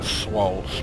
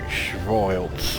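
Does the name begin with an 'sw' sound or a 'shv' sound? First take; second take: sw; shv. First: The name begins with an 'sw' sound. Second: The name begins with a 'shv' sound. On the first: The speaker calls it wrong. "I'm pronouncing this system wrong" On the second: The speaker calls it right. "that looks far more like a Germanic name"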